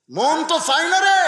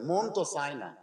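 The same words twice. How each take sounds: First: "মন তো চায় না রে" called out high and loud; loud drawn-out cry. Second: Said in the usual way. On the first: Shown as a demonstration. Preacher calls out the heart's reluctance loudly. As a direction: wail the line, stretching "রে" long.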